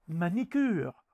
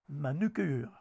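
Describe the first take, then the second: First: The second vowel is an i sound. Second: The second vowel is a u sound. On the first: The speaker calls it wrong. "Ce sont également des barbarismes lexicaux" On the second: The speaker calls it right. "au lieu de"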